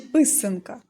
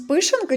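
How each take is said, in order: First: The middle consonant is an 's' sound. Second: The middle consonant is an 'sh' sound. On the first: The speaker calls it right. "Дуже добре" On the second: The speaker calls it wrong. "пишанка чи писанка"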